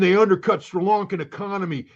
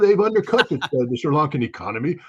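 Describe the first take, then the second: First: It is spoken in an exaggerated American accent. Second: It is spoken in an exaggerated British accent. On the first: The speaker sounds unintelligent. "I put in my worst dumb American accent when I did that" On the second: The speaker sounds intelligent. "Oh my God, it's a British accent"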